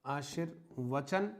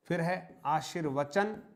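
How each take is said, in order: First: आशीर्वचन said slowly and softly; slow, soft repeat of आशीर्वचन; slow dictation. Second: Said in the usual way. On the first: Shown as a demonstration. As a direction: spell out आशीर्वचन slowly for writing.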